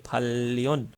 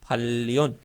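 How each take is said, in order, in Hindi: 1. दूसरा अक्षर l की आवाज़ से शुरू होता है। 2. दूसरा अक्षर l की आवाज़ से शुरू होता है।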